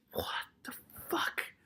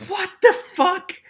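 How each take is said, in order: First: Slow, hushed disbelief; stunned whisper. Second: Very high, loud, slow disbelief; shocked outcry. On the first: Reader stunned by the story's secret, whispering. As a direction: whisper it in real shock. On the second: Reader appalled by the story's secret, crying out. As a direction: cry it out, word by word. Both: Real, not acted.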